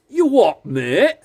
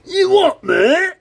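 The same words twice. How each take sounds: First: It is said plainly, without strong emphasis. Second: It is said with strong, exaggerated emphasis.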